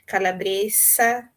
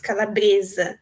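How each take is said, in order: First: The s is a voiceless hiss. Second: The s is a voiced z sound. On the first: "no espanhol" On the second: "no português"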